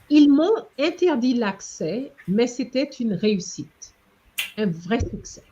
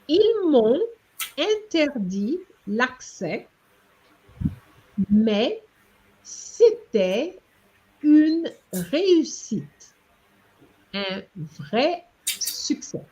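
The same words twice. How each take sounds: First: It is read smoothly at a natural, fluent pace. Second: It is read slowly and carefully, word by word. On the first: "the way I'm going to read it fluently" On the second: "I'm going to read it for you"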